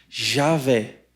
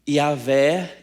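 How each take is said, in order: First: The name begins with a J sound. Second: The name begins with a Y sound. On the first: "Tem som de J, possivelmente" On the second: "esse som de I, que é o Yod"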